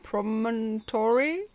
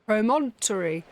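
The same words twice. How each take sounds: First: "promontory?" said slowly, rising like a question; slow, doubtful "promontory?" with a rise; unsure rising try. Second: "Promontory" said firmly with a falling close; confident try. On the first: Player stumbling over a hard word, asking it. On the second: Player finally landing the word, sure of it. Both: Real, not acted. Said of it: "what is that word?".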